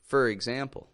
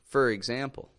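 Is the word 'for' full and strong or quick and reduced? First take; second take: reduced; reduced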